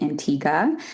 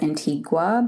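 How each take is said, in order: First: It is said like the Caribbean island's name. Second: It is said like the Guatemalan city's name. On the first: It names the Caribbean island. The speaker calls it right. "so the island is Antigua" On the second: It names the place in Guatemala. The speaker calls it wrong. "sometimes people pronounce it as Antigua, but that is not the island"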